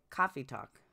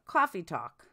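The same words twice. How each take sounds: First: Boston accent. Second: Put-on Boston accent. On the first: Shown as a demonstration. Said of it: "Sounds like, like". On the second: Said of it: "Will you say coffee talk, [name]?".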